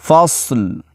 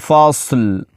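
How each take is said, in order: The two takes are said the same way.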